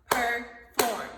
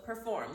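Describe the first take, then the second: First: "Perform" broken into two loud beats, PER - FORM; clapped-out syllables. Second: Said in the usual way. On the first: Shown as a demonstration. Teacher clapping out the word for students, "Perform" in two separate loud syllables. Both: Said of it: "let's clap it out".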